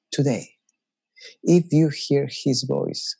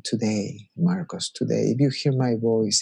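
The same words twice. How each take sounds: First: Slow, weighty scripture read; slow solemn reading. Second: Gentle, tender invitation; loving voice of God. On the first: Preacher reading the verse as stern warning. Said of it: "you can read that in very different ways". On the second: God calling Marcos lovingly, tender. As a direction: speak it like a loving call by name. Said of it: "if you can hear that in that tone". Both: Shown as a demonstration.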